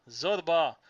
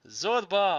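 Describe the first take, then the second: First: Loud cry of his name; shout. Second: Loud, high cry of his name; shout. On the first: Narrator calling Zorba again, loud shout. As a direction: call him again, desperate. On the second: Narrator calling Zorba in the gallery, loud shout. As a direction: call him desperately into the dark. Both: A narrator's reading. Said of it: "I shouted".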